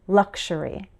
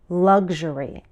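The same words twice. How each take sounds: First: The middle has a K then SH sound. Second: The middle has a G then ZH sound. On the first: "a K sound, followed by an S H sound" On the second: "a G sound, followed by a Z H sound"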